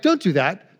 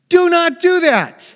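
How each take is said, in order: First: It is said calmly, without anger. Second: It is said angrily, very upset.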